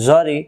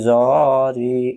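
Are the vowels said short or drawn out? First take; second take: short; drawn out. First: The vowels are said short and quick. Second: The vowels are drawn out long. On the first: The speaker calls it right. "তাড়াতাড়ি জরি" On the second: The speaker calls it wrong. "উচ্চারণ ভুল"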